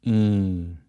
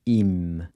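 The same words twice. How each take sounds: First: "Im" like "eeng", lips never touching; right "Im", nasal ee without M closure; Portuguese nasal IM. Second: "im" as "eem", lips closing on the M; wrong "im" with a full English M; English-style M. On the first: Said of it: "Your lips should never touch at the end". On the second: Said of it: "avoid pronouncing the M like you would in English". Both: Shown as a demonstration.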